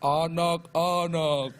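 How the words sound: It is said in a spooky, scary way.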